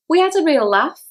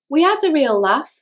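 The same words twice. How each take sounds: First: The vowel in laugh is long. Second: The vowel in laugh is short and flat.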